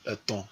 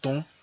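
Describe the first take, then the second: First: The word is said in full with two syllables. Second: The word is shortened to one syllable. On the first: "on dit eton" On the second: "devient ton"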